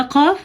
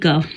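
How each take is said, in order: First: قاف said thick with a back-of-throat q; heavy qaf. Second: قاف said as a light "kaaf"; thin kaf. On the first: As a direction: fill the mouth on a heavy قاف. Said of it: "یہ موٹا قاف". (موٹا قاف) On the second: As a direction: use a thin, forward k for قاف. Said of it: "یہ باریک قاف". (باریک کاف) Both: Shown as a demonstration.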